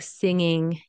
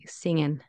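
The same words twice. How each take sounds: First: The word ends with an ng sound. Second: The word ends with an n sound. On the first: "Instead of" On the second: "you can say"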